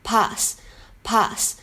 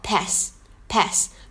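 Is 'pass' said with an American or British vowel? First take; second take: British; American. First: The vowel is a long, open 'ah' sound. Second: The vowel is a flat 'a' as in cat. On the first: "它的音是读的是长元音的r 读作pass" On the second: "美式呢读作pass"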